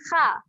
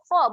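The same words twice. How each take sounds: First: The kha is said light and thin. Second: The kha is said heavy and thick. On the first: The speaker calls it wrong. "bukan kha" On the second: The speaker calls it right. "ni pun huruf yang tebal"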